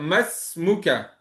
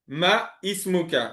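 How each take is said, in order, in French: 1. Les deux mots se collent, voyelle supprimée. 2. Les deux mots se disent séparément, voyelle gardée. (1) "si on fait la liaison" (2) "Si on fait pas la liaison"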